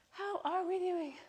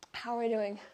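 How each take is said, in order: First: Higher sing-song check-in. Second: Said in the usual way. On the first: Real, not acted. Coach checking on the class, pitched up and softer. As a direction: repeat it pitched up, softer, playful.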